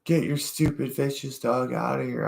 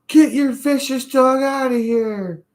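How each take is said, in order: First: High-pitched mock anger at normal volume; mad lady impression. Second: Very high, loud mock screech; mad lady impression. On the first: Retelling the lady who called the dog stupid, high mock-angry voice. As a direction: imitate an irate woman in a raised pitch, without shouting. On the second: Lady ordering a dog owner out of the park, furious mock screech. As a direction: imitate an angry woman screeching at the top of her voice. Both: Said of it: "That lady was so mad".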